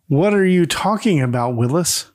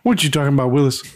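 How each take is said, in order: First: It is said in a plain narrating voice. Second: It is said in an imitated character voice. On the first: The speaker calls it wrong. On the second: The speaker calls it right.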